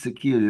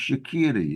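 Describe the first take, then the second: First: The name starts with an initial vowel sound. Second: The name starts directly with a 'sh' sound. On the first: This is how it would be read from the spelling. The speaker calls it wrong. "That's how we would pronounce it if we read it" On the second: This is how the people themselves say it. The speaker calls it right. "it's actually pronounced Shakiri"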